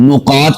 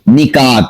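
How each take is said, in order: First: The first vowel is u, with a deep k. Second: The first vowel is i, with a light k. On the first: The speaker calls it wrong. "इसको नुकात पढ़ दिया जाता है मोटे कौफ के साथ" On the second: The speaker calls it right. "नून के नीचे जेर, काफ बारीक"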